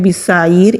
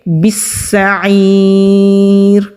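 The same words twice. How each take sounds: First: The s sound is said lightly, without holding. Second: The s sound is held firmly with a brief stop. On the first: The speaker calls it wrong. "इस तरह नहीं पढ़ेंगे" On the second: The speaker calls it right. "बल्कि पढ़ेंगे"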